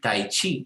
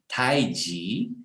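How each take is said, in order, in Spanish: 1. La segunda sílaba empieza con un sonido ch. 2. La segunda sílaba empieza con un sonido j. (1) "En chino no se pronuncia chi" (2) "sino que se pronuncia ji"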